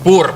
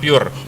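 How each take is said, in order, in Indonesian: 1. Diucapkan dengan vokal 'oo' yang biasa, 'poor'. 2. Diucapkan dengan bunyi 'yoo', 'pure'. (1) "pur ya" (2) "bukan pure"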